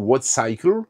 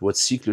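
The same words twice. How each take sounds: First: The name is pronounced with English sounds. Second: The name is pronounced with French sounds. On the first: "je pense que ça se dit plutôt Wattcycle" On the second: "je le dis en français"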